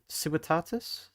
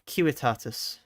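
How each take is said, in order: First: The word begins with a soft S sound. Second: The word begins with a hard K sound. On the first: The speaker calls it wrong. "Civi uh, no" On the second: The speaker calls it right. "Latin pronunciation"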